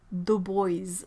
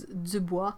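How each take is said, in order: First: Put-on "Dubois" said as English "doo-BOYZ"; anglicised pronunciation. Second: "Dubois" said the French way, ending in "bwah"; French pronunciation. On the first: Reading chat about an athletic director's name, anglicised pronunciation. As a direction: rhyme the end of "Dubois" with "boys". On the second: Reading chat about an athletic director's name, French pronunciation. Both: Shown as a demonstration.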